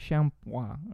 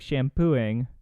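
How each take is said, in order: First: It is said with French nasal vowel sounds. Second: It is read out the way it looks. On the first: The speaker calls it right. "Something closer to that" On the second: The speaker calls it wrong. "This looks like shampooing, but don't say that"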